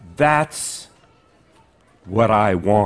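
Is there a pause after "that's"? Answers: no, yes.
yes. There is a pause after "that's". It sounds menacing. "It's much scarier"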